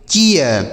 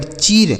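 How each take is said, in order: First: चीयर in two sounds, chee-yar; ee-ya glide. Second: चीर with plain long ee; pronuncia errata. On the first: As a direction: open the ee into ya in चीयर. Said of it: "इसे पढ़ेंगे". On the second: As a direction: say चीर as one syllable, ee straight into r. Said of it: "उच्चारण ऐसे नहीं होगा". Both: Shown as a demonstration.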